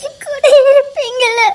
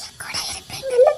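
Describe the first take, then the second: First: Louder, breaking into sobs; sobbing plea. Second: Hushed, breaking whisper; tearful whisper. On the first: Wife sobbing to her husband for reassurance. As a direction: let the fear spill out crying. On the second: Wife whispering to her husband, tearful. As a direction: ask in a small scared whisper. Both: Acted.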